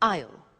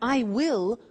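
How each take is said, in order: First: It is contracted into one syllable. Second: It is said as two full words.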